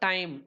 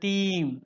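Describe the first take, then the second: First: The vowel sounds like eye. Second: The vowel sounds like ee. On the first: This is the modern pronunciation. "Modern இங்கிலீஷ்ல நம்ம டைம் அப்படின்னு pronounce" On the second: This is an earlier pronunciation. "டைம் வந்து டீம் அப்படின்னு இருந்தது"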